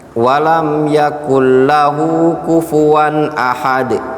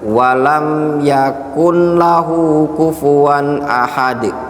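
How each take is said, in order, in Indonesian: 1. Bunyi n menyatu ke dalam l yang mengikutinya. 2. Bunyi n diucapkan terpisah sebelum l. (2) "dibaca sama dia"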